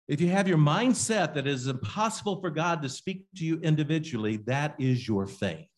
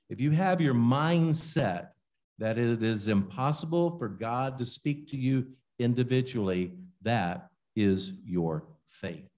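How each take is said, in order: First: It is read fast. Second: It is read slowly.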